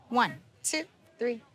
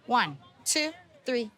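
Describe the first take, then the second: No difference in how they are said.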